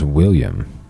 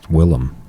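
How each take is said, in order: First: The name is said with a 'yum' ending. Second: The name is said with a 'lem' ending. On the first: The speaker calls it wrong. "I thought his name was William" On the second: The speaker calls it right. "It's Willem"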